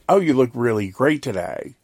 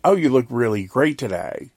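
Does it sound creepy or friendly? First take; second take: friendly; friendly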